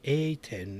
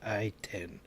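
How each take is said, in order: First: The first syllable sounds like 'ay'. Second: The first syllable sounds like 'eye'. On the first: The speaker calls it right. "It's supposed to be A ten" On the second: The speaker calls it wrong. "not I ten"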